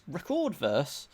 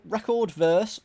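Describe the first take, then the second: First: "Record" said rih-CORD, stress on the second syllable; record as verb. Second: "record" said REH-cord, stress on the first syllable; record as noun. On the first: Reading the clue, trying the verb "Record", rih-CORD. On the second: Reading the clue, trying the noun "record", REH-cord. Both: Shown as a demonstration. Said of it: "However you want to say record".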